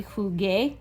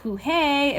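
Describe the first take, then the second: First: Jugué with a hard G before the é; hard G sound. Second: Jujé with an H-like sound in both syllables; soft G sound. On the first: Teacher showing the changed spelling's sound, hard G in jugué. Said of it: "So jugar would be jugué". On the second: Teacher showing what to avoid, H sound in jujé. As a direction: say jujé slowly, breathy H replacing the hard G. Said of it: "not jujé". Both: Shown as a demonstration.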